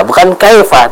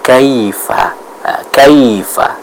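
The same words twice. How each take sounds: First: "kaifa" said as "kaefa"; imitating the E error. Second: Slow "kaifa" with clear ai; drawn-out "kaifa", pure ai diphthong; correct ai. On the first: Teacher imitates student's mistake, ai read as E. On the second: Shown as a demonstration. Teacher corrects student, slow clear "kaifa". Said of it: "tapi apa?".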